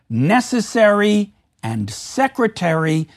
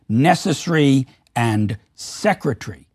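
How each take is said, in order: First: Every syllable of both words is fully pronounced. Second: A syllable in each word is reduced or dropped. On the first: The speaker calls it right. "full syllable count in the words" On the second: The speaker calls it wrong.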